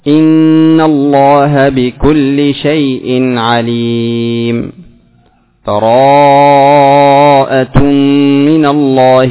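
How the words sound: A full stop with a new breath between phrases. "فالوقف"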